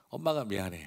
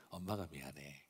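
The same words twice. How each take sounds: First: A touch of a soothing mom, 엄마가 미안해 said gently; mild comforting mother voice; tender mother. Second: Softer, hushed 엄마가 미안해 with a falling close; almost whisper the apology to the child; quiet soothing mom, softer still; hushed tender mother. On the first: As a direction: gently apologise to a hurt child. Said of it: "너무 마음이 아파하면서". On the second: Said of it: "그걸 옆에서 가만히 보면서". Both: Retold or imitated.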